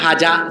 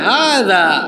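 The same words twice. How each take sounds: First: The middle consonant is a plain 'j' sound. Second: The middle consonant is said with tongue against teeth. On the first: The speaker calls it wrong. "তো বলতেছে" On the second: The speaker calls it right. "জিব্বার আগাকে দাঁতের আগায় লাগিয়ে বলতে হয়"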